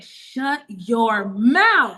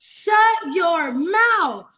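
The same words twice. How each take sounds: First: Very slow, drawn-out amazed shut your mouth; stunned disbelief. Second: Bigger disbelief. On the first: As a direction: stretch every word in happy shock. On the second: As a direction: repeat it higher, savouring the shock. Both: Retold or imitated.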